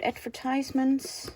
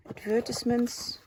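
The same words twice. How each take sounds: First: "advertisements" said ad-ver-TIZE-ments, American style; "advertisements" with a long tize in the middle; one way to say it. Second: "advertisements" said ad-VER-tis-ments, British style; "advertisements" with a short tis in the middle; the other way to say it. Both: Shown as a demonstration. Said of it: "advertisements or advertisements, if you wanna say it like that".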